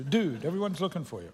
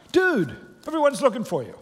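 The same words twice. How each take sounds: First: Said in the usual way. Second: Higher, louder eager call; excited exclaim. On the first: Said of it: "I think it sounds appropriate". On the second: A narrator's reading. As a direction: burst out with the news, voice up high. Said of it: "they exclaimed".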